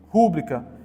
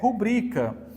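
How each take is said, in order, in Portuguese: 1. A tônica está na primeira sílaba. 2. A tônica está na segunda sílaba. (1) "não tem como ser rúbrica" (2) "é rubrica"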